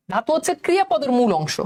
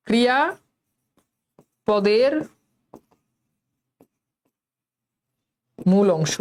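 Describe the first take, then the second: First: Said in the usual way. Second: Very slow, word by word with long pauses; slowed-down dictation. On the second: Shown as a demonstration. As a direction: spell it out slowly for the class, leaving big gaps between words. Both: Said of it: "কথা বলার speed কমান".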